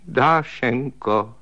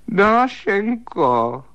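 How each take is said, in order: First: Drawn-out tearful plea. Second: Calling out. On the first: Husband calls his sister-in-law tearfully in the dark, slow weepy plea. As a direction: stretch the name slowly, near tears. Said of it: "řekl plačtivým hlasem". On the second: Calling her in dark bedroom. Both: A narrator's reading.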